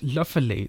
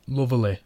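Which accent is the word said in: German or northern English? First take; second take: German; northern English. First: It is said in a German accent. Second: It is said in a northern English accent. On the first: "in a generic German accent such as Lofeli" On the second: "lovely in the northern accent"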